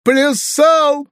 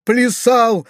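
First: Very high, loud tearful bawl; sobbing wail. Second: High, acted tearful wail; sobbing wail. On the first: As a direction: bawl it out like a weeping boy. (громкий плаксивый рёв) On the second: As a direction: wail it like a weeping boy. (плаксивый вопль) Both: A narrator's reading. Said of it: "проревел Фалалей, всхлипывая".

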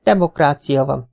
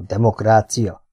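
First: Said in the usual way. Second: Demokrácia sounded out slowly, syllable by syllable; slowly tried out. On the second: Acted. Kinizsi slowly sounds out the new word demokrácia. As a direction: test demokrácia like a foreign word. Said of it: "próbálgatta az újonnan hallott szót kimondani".

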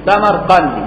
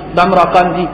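First: السمرقندي with the meem vowelled and the raa silent, as-samarqandi; السمرقندي pronounced samarqandi; correct pronunciation. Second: السمرقندي with a silent meem and an open raa, as-samraqandi; السمرقندي said samraqandi, the wrong way; wrong pronunciation. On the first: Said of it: "بفتح الميم وتسكين الراء". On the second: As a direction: mispronounce السمرقندي as samra-qandi. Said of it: "مشكله السمرقندي بفتح الراء وتسكين الميم". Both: Shown as a demonstration.

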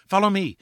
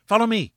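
First: Much higher, eager call to follow; joyful call. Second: Rising joyful call. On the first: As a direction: call the others on with joy. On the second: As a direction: press them on, climbing in excitement. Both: A narrator's reading. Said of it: "a sudden cry of joy".

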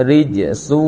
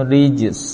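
First: ริจซู with a long final oo after the S; continuing ending. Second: ริจส ending on a voiceless S, no vowel; stopped ending. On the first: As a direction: read on through ริจซู, drawing out the final vowel. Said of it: "แต่ถ้าไม่หยุดก็". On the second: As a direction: stop on ริจส, letting the final S be heard. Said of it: "ถ้าเราหยุด อ่า ออกเสียง". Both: Shown as a demonstration.

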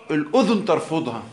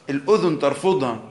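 No difference in how they are said.

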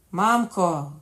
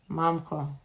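First: Loud, urgent summons; raised-voice cry. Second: Said in the usual way. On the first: A narrator's reading. Dying king calls to his nurse, raised-voice cry. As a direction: call out louder for the nurse. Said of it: "крикнув король дужчим голосом". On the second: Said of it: "сказав король".

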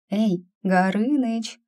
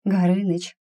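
First: Slower, higher call to wake him. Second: Said in the usual way. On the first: Acted. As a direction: raise the voice to rouse a sleeper. Calling the dragon.

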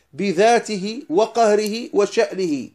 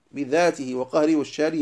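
First: بذاته وقهره وشأنه drawn out slowly, each word stressed and higher; slow emphatic stress. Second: Said in the usual way. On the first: Shown as a demonstration. Teacher stressing each word of the creed to students, slow and emphatic.

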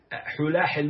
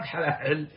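First: "حلاحل" said hulahil, u after the first ha; short u opening "حلاحل"; singular with damma. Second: "حلاحل" said halahil, a after the first ha; short a opening "حلاحل"; plural with fatha. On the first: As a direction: say "حلاحل" as HU-laa-hil. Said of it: "مفرد". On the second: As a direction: say "حلاحل" as HA-laa-hil. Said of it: "جمع". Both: Shown as a demonstration.

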